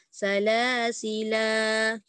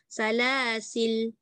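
First: The word ends on a lengthened a vowel. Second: The word ends on a bare l consonant. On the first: "kita baca dengan dua harakat" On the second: "baca dengan sukun pada lam"

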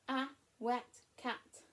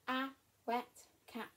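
No difference in how they are said.

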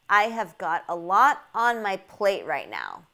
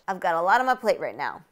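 First: The words are said separately and fully, with no linking. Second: The words are linked and reduced, with weak vowels.

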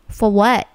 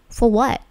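The two takes are said the same way.

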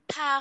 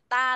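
First: The t is said with a puff of air. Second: The t is said without a puff of air. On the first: The speaker calls it right. "Tha không phải là ta đâu nhá. Thờ a tha ấy" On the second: The speaker calls it wrong. "không phải là ta đâu nhá"

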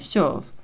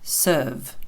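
First: The vowel is a soft yo-like sound. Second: The vowel is a sound between e and er. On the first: The speaker calls it wrong. "І не м'який знак О, не serve" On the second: The speaker calls it right. "Середнє"

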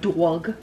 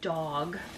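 First: The word has a strong Long Island vowel. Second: The word has a plain, neutral vowel. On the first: "not dog" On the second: "I say ... dog"

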